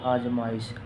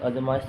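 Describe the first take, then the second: First: The first vowel is long. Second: The first vowel is short. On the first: The speaker calls it right. "बड़ो आवे" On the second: The speaker calls it wrong. "गलत है"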